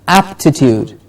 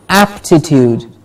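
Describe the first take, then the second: Both takes have the same delivery.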